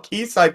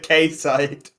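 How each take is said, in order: First: The first syllable sounds like 'key'. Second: The first syllable sounds like 'kay'. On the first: The speaker calls it right. "It's probably still key side considering it's a place" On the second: The speaker calls it wrong. "This is the only time I've ever heard you say it wrong"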